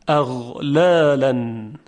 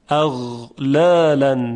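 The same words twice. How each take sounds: Both takes have the same delivery.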